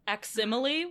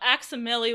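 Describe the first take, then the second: First: It is said to sound like facsimile. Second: It is said without a facsimile-like ending. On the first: "a neat way to pronounce that. Like facsimile" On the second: "one way to pronounce that"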